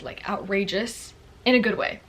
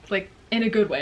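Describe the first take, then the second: First: Said in the usual way. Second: "good" leaned on and louder; "good" pressed firmly, falling at the end; stress on good. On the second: Shown as a demonstration. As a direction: hit "good" so it lands.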